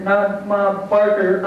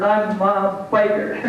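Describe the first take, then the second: First: "Barker" said slowly as the wrong name; correcting a name. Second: "Biker" drawn out slowly as the right name; stress on BIKER. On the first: Biker corrects her nickname, slow stress on "Barker". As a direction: draw out "Barker" to reject it. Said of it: "No, I'm not Ma Biker". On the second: Biker sets her nickname straight, slow stress on "Biker". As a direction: slowly land on "Biker" as the correction. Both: Real, not acted.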